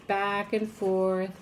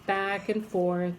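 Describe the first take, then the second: No difference in how they are said.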